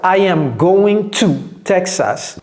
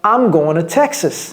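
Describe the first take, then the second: First: I am is said as two full words. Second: I am is shortened into one syllable. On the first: "C'est soit" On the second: "de façon naturelle"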